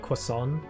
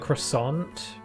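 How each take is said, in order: First: It is said with a British, French-like pronunciation. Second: It is said with an American pronunciation.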